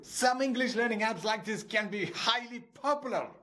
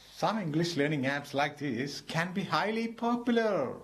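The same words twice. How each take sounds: First: It is shouted in an angry, exasperated voice. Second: It is said in a sad, regretful voice.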